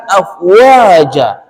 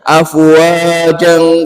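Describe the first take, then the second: First: The word ends on a vowel, then stops. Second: The word ends with an n, linked onward. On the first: The verse ends and the next command stands apart. The speaker calls it right. "Benar wakofnya di situ" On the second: The crowds become tied to the next command. The speaker calls it wrong. "Itu salah, Pak, bacanya"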